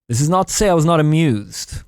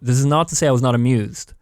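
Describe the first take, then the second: First: It is read in an unnatural, put-on voice. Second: It is read in a natural, normal voice.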